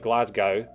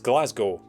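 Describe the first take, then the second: First: The final syllable rhymes with cow. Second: The final syllable rhymes with snow. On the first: The speaker calls it wrong. "no one in the history of the world has ever pronounced it that" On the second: The speaker calls it right. "the city that I was born in is Glasgow"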